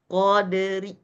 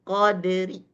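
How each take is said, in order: The two takes are said the same way.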